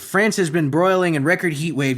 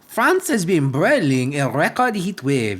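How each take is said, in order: First: It is read in the speaker's ordinary accent. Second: It is read in an exaggerated French accent.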